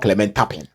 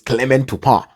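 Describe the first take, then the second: First: The surname is pronounced in a non-French way. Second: The surname is pronounced in a French way. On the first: The speaker calls it wrong. "It is not Clement Tapin" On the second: The speaker calls it right. "It is a, a French name, so it is Clement Tupar"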